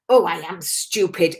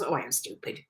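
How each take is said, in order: First: It sounds heavy and upset, like real self-blame. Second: It sounds light and matter-of-fact, like a statement. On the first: The speaker truly feels put down by it. The speaker calls it wrong. "rather than" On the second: It is a passing reaction, not a real feeling. The speaker calls it right. "It's just more of a statement"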